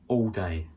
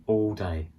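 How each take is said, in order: No difference in how they are said.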